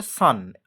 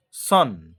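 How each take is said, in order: First: সান with an open a, same as sun; correct pronunciation of son. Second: সন with a rounded o, as many teachers say it; wrong pronunciation of son. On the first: Teacher correcting students, সান said like sun. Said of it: "এটার actually উচ্চারণ হচ্ছে". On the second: Teacher showing the widespread wrong way, সন with round o. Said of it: "এটাকে সন উচ্চারণ করে দিচ্ছে". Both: Shown as a demonstration.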